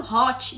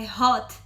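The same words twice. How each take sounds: First: "hot" ending in "chee", like "hotchee"; mispronounced hot. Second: "hot" in one syllable, ending on a plain t; corrected hot. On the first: Friend imitating the learner's mistake, "hot" said as "hotchee". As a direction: say "hot" in two syllables with a Brazilian "chee" ending. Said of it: "você tá falando hot". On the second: Friend correcting the learner, "hot" stopped on the t. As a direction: say "hot" with no "chee" after the t. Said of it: "não é hot, é hot". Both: Retold or imitated.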